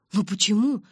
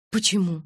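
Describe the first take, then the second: First: Louder, higher question with a rising tune; demanding explanation. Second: Strict question, louder with a falling tune; stern. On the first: Mike demanding explanations from her, insistent. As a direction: press for a reason, protesting. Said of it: "потребовал объяснений Майк". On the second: Girl questioning Mike about his answer, stern. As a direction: demand a reason sternly. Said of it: "строго спросила я". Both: A narrator's reading.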